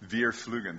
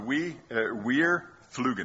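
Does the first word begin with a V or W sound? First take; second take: V sound; W sound. First: The first word begins with a V sound. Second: The first word begins with a W sound. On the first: The speaker calls it right. "Veer. Oh, yeah, that's right" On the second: The speaker calls it wrong. "They don't pronounce their W's that way"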